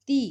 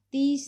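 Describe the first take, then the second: First: ती with final s dropped; Punjabi form. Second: तीस with final s; Hindi form. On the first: Teacher showing the Punjabi form, open-ended ती. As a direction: leave ती open on ee. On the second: Teacher giving the Hindi word, तीस with s. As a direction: close तीस on s. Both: Shown as a demonstration. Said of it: "तो पंजाबी च बोलांगे".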